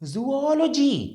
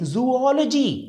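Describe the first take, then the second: No difference in how they are said.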